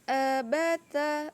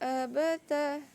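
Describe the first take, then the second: First: The vowels are said with the mouth half open. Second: The vowels are said with the mouth half open.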